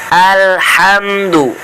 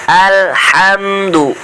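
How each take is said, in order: The two takes are said the same way.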